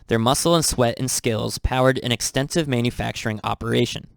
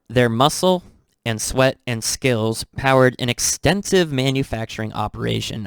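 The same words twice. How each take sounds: First: It is read at normal speed. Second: It is read slowly.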